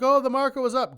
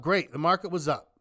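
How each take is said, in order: First: High, loud hyped-up crowd; mock excitement. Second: Dry, sarcastic acknowledgement; unimpressed echo. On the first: Mimicking everyone's reaction to the market, mock excited. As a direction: mimic everyone cheering, pitched up and louder. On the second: Real, not acted. Answering the excited crowd about the market, unimpressed. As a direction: brush the cheer off in your own register. Own dismissive echo of the cheer.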